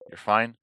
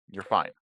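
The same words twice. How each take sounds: First: "You're fine." louder with rising end; insisting. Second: Said in the usual way. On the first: Acted. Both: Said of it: "calm down".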